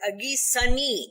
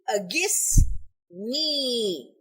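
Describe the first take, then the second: First: A vowel sound is heard between 'Agis' and 'ni'. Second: No vowel sound is heard between 'Agis' and 'ni'. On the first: The speaker calls it wrong. "it is mispronounced as Agisani. This is not correct" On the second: The speaker calls it right. "there is no vowel between Agis and Ni"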